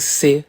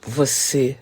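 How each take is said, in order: First: The word is shortened to one syllable. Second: The word is said in full, two syllables. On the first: "quando a gente fala você em C" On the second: "quando a gente fala você em C"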